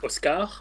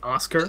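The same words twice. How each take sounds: First: The name is said with a French pronunciation. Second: The name is said with an American pronunciation. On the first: "I'm used to saying it in French like Oscar" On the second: "You wanted me to say it in American?"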